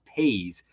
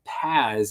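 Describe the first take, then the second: First: The vowel is a long 'ay' sound. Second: The vowel is short, with no 'ay' sound. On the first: The speaker calls it right. "it's pronounced Paze" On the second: The speaker calls it wrong. "it's not it's not Paz"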